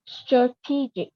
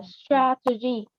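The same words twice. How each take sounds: First: "strategic" as struh-TEE-jik; adjective pronunciation. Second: "strategy" with an open E in the first syllable; open E vowel. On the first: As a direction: reduce the first vowel and stress TEE in "strategic". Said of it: "nếu mà nó là tính từ thì mình sẽ đọc là". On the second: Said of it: "thì đúng là âm E bẹt". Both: Shown as a demonstration.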